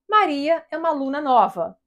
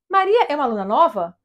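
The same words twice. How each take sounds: First: The intonation sounds like a plain statement. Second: The intonation changes so it sounds like a question. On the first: It states a fact. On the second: It asks whether the fact is true.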